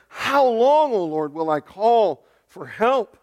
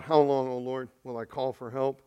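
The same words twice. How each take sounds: First: Louder, higher cry on "How long". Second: Said in the usual way. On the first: Acted. Prophet long praying to the Lord, crying out. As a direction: plead it loudly, stretching out the call for help. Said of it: "Habakkuk's been praying about for a while". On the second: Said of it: "he cries out".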